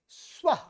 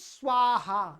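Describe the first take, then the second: First: It ends with a light breathy h. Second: It ends with a full 'ha' syllable. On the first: The speaker calls it right. "हल्का सा ह के समान" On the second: The speaker calls it wrong. "ये गलत है, स्वाहा नहीं है"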